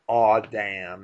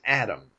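First: The first vowel is a rounded aw sound. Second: The first vowel is a plain a sound. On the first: The speaker calls it wrong. "I don't like aw damn" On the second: The speaker calls it right. "It's Adam"

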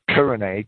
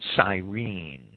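First: The name has a Greek pronunciation, like Kurene. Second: The name has its usual English pronunciation. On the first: "K-U-R-E-N-E, would be the Greek pronunciation" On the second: "I think it's usually pronounced Cyrene"

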